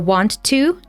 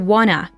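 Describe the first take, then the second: First: Both words are said fully with the T sound. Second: The words blend together without the T sound. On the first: "John reduces here want to" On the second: "to wanna, dropping the T sound"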